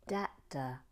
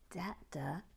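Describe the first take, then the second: First: Said in the usual way. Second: Puzzled whisper. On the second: Real, not acted.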